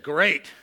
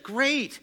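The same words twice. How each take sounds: First: It sounds grim and unhappy. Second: It sounds cheerful and upbeat.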